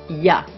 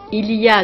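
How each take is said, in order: First: The word il is dropped completely. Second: The word il is pronounced in full. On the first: This is casual spoken speech. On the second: This is standard speech.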